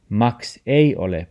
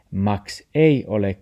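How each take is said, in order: Both takes have the same delivery.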